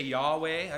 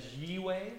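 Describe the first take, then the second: First: Yahweh said YAH-way, with an open a first; usual pronunciation. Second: Yihweh said YIH-way, with a short i first; alternative pronunciation. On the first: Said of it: "or we say Yahweh". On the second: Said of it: "sometimes people pronounce it as Yihweh". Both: Shown as a demonstration.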